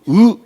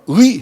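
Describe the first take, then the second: First: The vowel stays flat with no glide. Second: The vowel glides into an ee sound. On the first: "전라도 사람은 ... 의를 못하고 으 이럽니다" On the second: "의 해봐"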